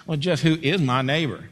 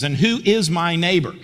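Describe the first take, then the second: First: Cocky, smart-aleck challenge; self-assured lawyer laying a trap; a little swagger. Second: Said in the usual way. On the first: Acted. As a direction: ask it with a bit of swagger. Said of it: "he said it with a little swagger". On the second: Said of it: "I think that's how he said it".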